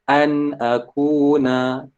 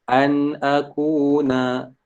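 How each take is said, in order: No difference in how they are said.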